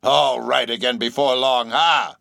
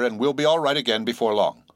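First: Mocking echo ending in a scornful "ha"; old sailor's scornful repeat; solemnly derisive laugh. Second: Said in the usual way. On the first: A narrator's reading. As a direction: throw the words back with derision. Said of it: "laughed the stranger, with a solemnly derisive sort of laugh".

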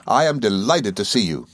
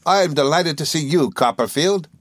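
First: Measured, sincere greeting in the narrator's own register. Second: Put-on high, eager voice for an old schoolfellow; Traddles returning greeting. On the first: Narrator greeting his old schoolfellow, sincere and measured. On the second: Traddles answering his old friend Copperfield, high and eager. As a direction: return the greeting in a lifted character voice. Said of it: "he returned". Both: A narrator's reading.

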